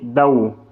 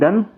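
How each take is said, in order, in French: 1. Le n se fond en un son w. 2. La syllabe se termine par un son n bien net. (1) "il faut dire Dao" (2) "il ne faut pas dire Dan"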